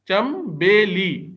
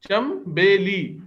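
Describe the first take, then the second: Both takes have the same delivery.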